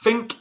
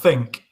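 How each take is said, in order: First: The word begins with an F sound. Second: The word begins with a TH sound. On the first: "using an F instead of a T H" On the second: "instead of a T H"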